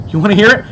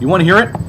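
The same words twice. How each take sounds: First: Teasing, louder offer. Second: Said in the usual way. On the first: Shown as a demonstration.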